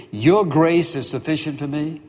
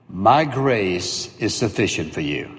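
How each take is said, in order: First: Rising, disbelieving repeat of the promise; incredulous echo. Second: Low, slow, measured divine reply; God's calm answer. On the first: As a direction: throw the words back as a question. Paul echoes God, incredulous. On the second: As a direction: deliver it as God, unhurried and final. God's answer voiced slowly. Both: Acted.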